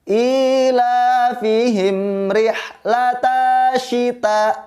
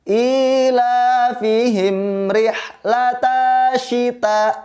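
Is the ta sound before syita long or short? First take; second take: long; long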